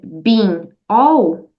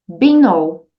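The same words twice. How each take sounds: First: The two words are said separately. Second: The final n runs straight into all. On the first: The speaker calls it wrong. "Em vez de você dizer been all" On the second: The speaker calls it right. "junte, e aí ficará been all"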